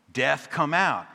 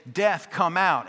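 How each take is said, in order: First: Said in the usual way. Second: Loud, high call at the church door; booming call. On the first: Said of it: "And we would say". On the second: Retold or imitated. Pastor calling at the locked door, loud booming call. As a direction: pound out the call to death. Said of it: "He would say".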